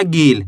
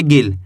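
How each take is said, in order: First: गील with a drawn-out ee; wrong long ee. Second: गिल with the i barely stretched; short i. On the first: Teacher showing the reading to avoid, गील with long ee. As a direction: draw the vowel of गील out long. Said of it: "ऐसे नहीं पढ़ना". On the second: Teacher showing how little to stretch it, गिल with short i. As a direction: keep the vowel in गिल short. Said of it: "कम खींच के पढ़ना है". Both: Shown as a demonstration.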